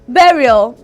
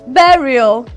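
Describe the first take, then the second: The two takes are said the same way.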